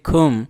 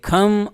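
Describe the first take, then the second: First: The vowel is a rounded 'oo' sound. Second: The vowel is an open 'uh' sound. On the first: "Wales के लोग बोलेंगे खुम" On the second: "England के लोग बोलेंगे खम"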